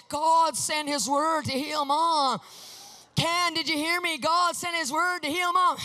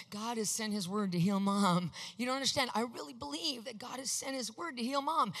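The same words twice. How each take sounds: First: Slow, loud, higher, hammering each word; insistent shout. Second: Said in the usual way. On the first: Retold or imitated. Pressing Ken over and over, a slow insistent shout. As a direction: drive it into her like a dog on a bone. I was like a dog. I kept on going at it.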